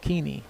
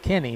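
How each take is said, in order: First: The first vowel sounds like 'ee'. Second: The first vowel sounds like 'eh'. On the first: The speaker calls it wrong. "not Keeney" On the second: The speaker calls it right. "that is pronounced Kenny"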